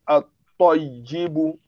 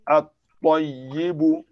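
First: The L is silent and the T is doubled. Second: The same.

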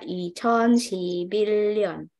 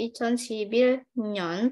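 First: The final syllable begins with an l sound. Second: The final syllable begins with an n sound. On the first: "bacanya 이천십일 년 ... seolah-olah di sininya pakai lion"

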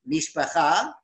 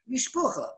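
First: It is said with Hebrew pronunciation. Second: It is said with Yiddish pronunciation. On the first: "Mishpacha means family in Hebrew" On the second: "How do you say it in Yiddish?"

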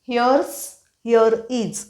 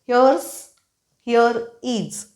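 The two takes are said the same way.

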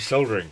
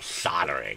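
First: The word has a British pronunciation. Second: The word has an American pronunciation.

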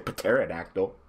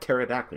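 First: The initial P is sounded. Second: The initial P is silent. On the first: The speaker calls it wrong. "You don't say pterodactyl" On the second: The speaker calls it right. "the P is silent. It's just like pterodactyl"

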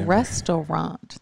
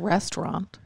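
First: The middle 'au' vowel is clearly pronounced. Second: The middle 'au' vowel is reduced or dropped. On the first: The speaker calls it right. "It's a restaurant. There's an A-U in there" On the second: The speaker calls it wrong. "It's not restaurant"

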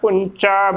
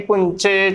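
First: The word ends in an a vowel. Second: The word ends in an e vowel. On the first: The speaker calls it right. "ਪੁੰਚਾ ਬੋਲਣਾ ਹੈ" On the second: The speaker calls it wrong. "ਚੱਚੇ ਨੂੰ ਲਾਵਾਂ ਦੇ ਨਾਲ ਉਚਾਰਨ ਕਰਨਾ, ਗਲਤ ਉਚਾਰਨ ਹੋਵੇਗਾ"

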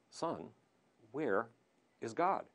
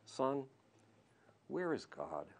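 First: It is said in a firmer, stern tone. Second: It is said in a gentle, soft tone.

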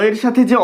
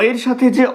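Both takes have the same delivery.

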